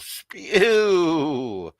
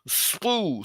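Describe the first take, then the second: First: The word is said as 'spew' with a y-glide. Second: The word is said as 'spoo' without a y-glide. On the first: The speaker calls it right. "That's how you say it" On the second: The speaker calls it wrong. "that's another one"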